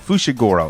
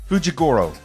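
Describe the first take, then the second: First: The second syllable starts with an 'sh' sound. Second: The second syllable starts with a 'j' sound. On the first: The speaker calls it right. "it's spelled with an F with an S H" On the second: The speaker calls it wrong. "I said it with a J"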